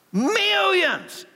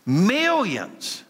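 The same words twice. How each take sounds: First: Much higher, ringing "Millions"; excited exclamation. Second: Said in the usual way. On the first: Shown as a demonstration. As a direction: shout "Millions" in delighted amazement. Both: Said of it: "you better start cheering".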